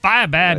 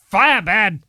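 First: It is said in a less monster-like voice. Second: It is said in a Frankenstein monster voice.

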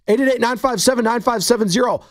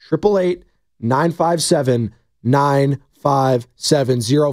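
First: The number is said fast. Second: The number is said slowly.

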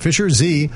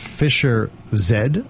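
First: The letter is said the American way, 'zee'. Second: The letter is said the English way, 'zed'.

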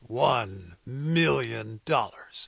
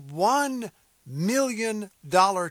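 First: It is said in a dramatic movie announcer voice. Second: It is said in his normal reading voice.

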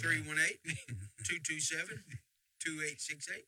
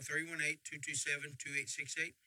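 First: The number is said slowly. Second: The number is said fast.

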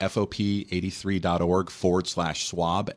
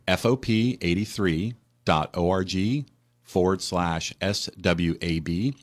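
First: It is said at normal speed. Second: It is said slowly.

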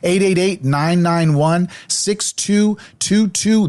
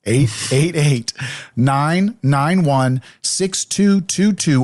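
First: The number is said quickly. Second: The number is said slowly.

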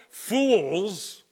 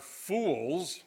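First: The word is said with strong emphasis. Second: The word is said with light emphasis.

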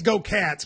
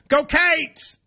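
First: It is said in a plain, neutral accent. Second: It is said in a Kentucky accent.

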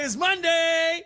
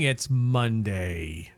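First: It is said in a cheerful, upbeat voice. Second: It is said in a gloomy, downbeat voice.

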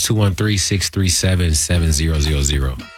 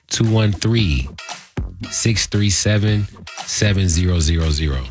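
First: The number is read at normal speed. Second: The number is read slowly.

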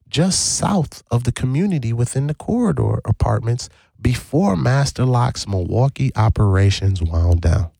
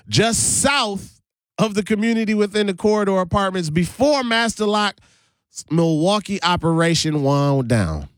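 First: It is read calmly, with less passion. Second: It is read with strong passion.

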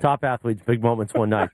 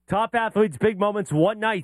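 First: It is read flatly, without enthusiasm. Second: It is read with lively enthusiasm.

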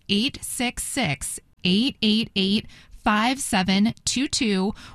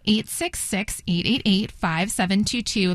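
First: The number is said at a slower pace. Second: The number is said at a faster pace.

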